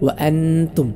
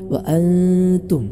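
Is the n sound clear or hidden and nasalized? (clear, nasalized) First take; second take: clear; nasalized. First: The n is pronounced clearly and fully. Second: The n is hidden with a nasal sound. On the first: The speaker calls it wrong. "അങ്ങനെയല്ല" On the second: The speaker calls it right. "അതുകൊണ്ട് ഇഖ്ഫാ ചെയ്യണം"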